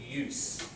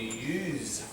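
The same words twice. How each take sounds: First: The word ends with an s sound. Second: The word ends with a z sound. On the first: It is a noun. "The noun is a s" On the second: It is a verb. "So you use z, a cell phone, verb"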